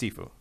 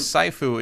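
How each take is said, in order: First: The first syllable sounds like 'see'. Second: The first syllable sounds like 'sigh'. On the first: The speaker calls it right. "I think it's Sifu" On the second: The speaker calls it wrong. "If it was Sifu, it should be S-A-I"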